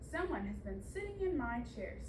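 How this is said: It is said in a big, deep voice.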